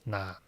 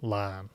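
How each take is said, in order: First: The word begins with an N sound. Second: The word begins with an L sound. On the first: "the um, original word is nan" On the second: "I like to use L for this word and say lan"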